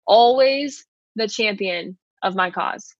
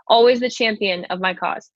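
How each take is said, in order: First: Slower, each word weighed, "Always" leaning forward; slow emphatic repeat. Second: Said in the usual way. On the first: Shown as a demonstration. Pastor repeating the verse to listeners, slow and emphatic. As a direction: let "Always the champion of my cause" sink in slowly.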